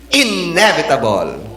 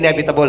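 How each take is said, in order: First: The stress falls on the first syllable. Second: The stress falls on a later syllable. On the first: The speaker calls it right. "Ang emphasis ay sa first stress. First syllable" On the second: The speaker calls it wrong. "hindi yan inevitable"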